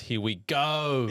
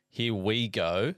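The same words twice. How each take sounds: First: It is said with more intensity and emphasis. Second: It is said in a casual, everyday way.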